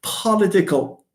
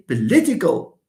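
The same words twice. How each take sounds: First: "political" misstressed as PO-litical; wrong first-syllable stress. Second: "political" stressed on LI, short weak po; correct second-syllable stress. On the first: Teacher showing the forbidden form, "political" stressed on PO. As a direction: punch PO at the start of "political". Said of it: "you cannot say political". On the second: Teacher giving the right form, "political" stressed on LI. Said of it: "No, you say political". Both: Shown as a demonstration.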